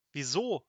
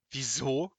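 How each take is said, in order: First: Said in the usual way. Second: Mildly growling echo of the question; understated wizardly grumble; growled question. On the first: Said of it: "fragte Seppel". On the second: A narrator's reading. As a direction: growl it back at him. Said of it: "knurrte Petrosilius Zwackelmann".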